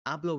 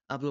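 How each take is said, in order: First: "Hablo" stressed on the final o; "Hablo" with the accent landing on -blo; stress on final syllable. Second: "Hablo" stressed on the first syllable; "Hablo" with an unaccented final o. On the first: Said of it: "with the accent". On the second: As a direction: lean on the opening of "Hablo": HA-blo. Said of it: "without the accent". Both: Shown as a demonstration.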